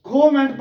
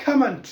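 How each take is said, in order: First: कमेंट as "ko-ment"; wrong "koh-ment" reading of कमेंट; mispronounced कमेंट. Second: कमेंट as "ka-munt"; correct कमेंट. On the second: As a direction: model कमेंट with short "a" and weak ending. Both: Shown as a demonstration. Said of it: "कमेंट नहीं है".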